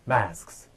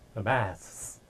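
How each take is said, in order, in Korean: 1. 마지막 s 앞의 k 소리는 들려요. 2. 마지막 s 앞의 k 소리는 빠져요. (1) "실제적으로는 masks, masks" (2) "이렇게 할 것 같은데 우리가 앞에서 봤을 때는"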